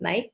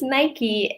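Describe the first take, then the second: First: It is said the British way. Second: It is said the American way.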